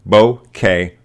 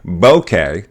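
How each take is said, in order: First: Both syllables carry equal stress. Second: The stress is on the first syllable. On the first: "Accent on both syllables" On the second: "accent on the first syllable"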